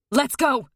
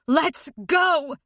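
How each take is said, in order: First: Urgent loud call; screaming. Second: Screaming. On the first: Mother dragging her daughter out, screaming. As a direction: yank her out yelling. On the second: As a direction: shout it harder. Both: A narrator's reading. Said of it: "she's screaming".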